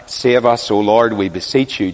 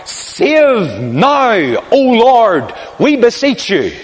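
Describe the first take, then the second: First: Said in the usual way. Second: Raised, chanting cry of a great crowd. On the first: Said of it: "died down". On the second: Retold or imitated. Preacher voicing the pilgrims' cry at the altar, raised chant. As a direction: call it out like thousands at the feast. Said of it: "would cry out".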